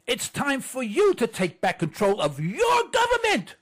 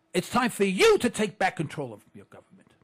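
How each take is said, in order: First: Plain. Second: You held and stressed. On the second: Host correcting we to you, stressing you. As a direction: lean on the word you. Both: Shown as a demonstration.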